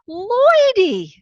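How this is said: The name is said with joyful recognition. She is overjoyed to recognize him. "you could just hear it in her voice. It was like, ... oh my God, it's you"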